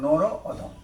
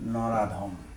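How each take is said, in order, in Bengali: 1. দুটো আলাদা শব্দ, স্বরধ্বনিগুলো আলাদা থাকে। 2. একটা শব্দ, দুটো স্বরধ্বনি একসাথে মিশে যায়। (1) "এই যে নর একটা শব্দ, অদম একটা শব্দ" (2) "এই শব্দটা দ্রুত বলার সময় কি হয়েছে?"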